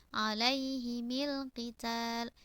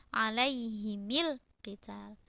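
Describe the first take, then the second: Both takes have the same delivery.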